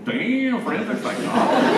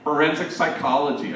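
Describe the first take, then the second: First: High, loud, laughing disbelief; amazed laugh. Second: Said in the usual way. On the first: Retold or imitated. Priest hearing the girl's answer, high and laughing with delight. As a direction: marvel at it through a laugh.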